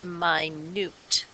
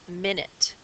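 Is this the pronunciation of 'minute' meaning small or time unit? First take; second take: small; time unit. First: It is pronounced as the word meaning very small. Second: It is pronounced as the word for a time unit. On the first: It means very small. "This one means small, and we pronounce it minute" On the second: It names a unit of time. "in this case, it's a unit of time"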